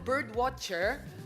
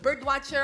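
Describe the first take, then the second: First: It is said with an American-style accent. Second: It is said with a plain Filipino accent.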